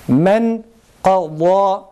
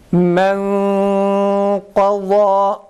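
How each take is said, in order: First: The n is pronounced clearly with tongue contact. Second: The n is hidden as a nasal hum. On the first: "ihfasız bu örnekleri okuduğumuz zaman" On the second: "nunu gizleyerek okuyacağız"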